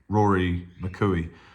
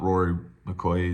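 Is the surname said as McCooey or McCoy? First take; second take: McCooey; McCoy. First: The surname is said as McCooey. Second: The surname is said as McCoy. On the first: The speaker calls it right. "He's Rory McCooey" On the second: The speaker calls it wrong. "He's not Rory McCoy"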